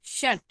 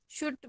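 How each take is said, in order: First: शट said with a short "uh" vowel; शट rhyming with but; correct vowel in शट. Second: शुट said with a short "oo" vowel, as in put; शुट rhyming with foot; wrong vowel in शुट. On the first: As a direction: say शट with "uh", as in cut. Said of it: "नहीं, शट". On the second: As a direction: say शुट as spelled, with a "u" sound. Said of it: "बोलते हैं क्या हम इसको? नहीं". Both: Shown as a demonstration.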